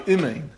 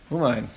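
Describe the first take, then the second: First: The first vowel is a short 'i' sound. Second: The first vowel is an 'u' sound. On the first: "it's a Chataf, which the Mishabrua says a Chataf is a Shva. You say imein" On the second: "the same thing with a shuruk"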